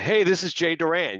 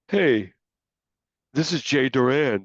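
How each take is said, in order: First: It sounds strong and full of confidence. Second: It sounds hesitant and lacking confidence. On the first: The caller is clear about what they want. The speaker calls it right. "when you were really vocal in what you wanted" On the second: The caller does not really know what they want. The speaker calls it wrong. "people can tell when you're"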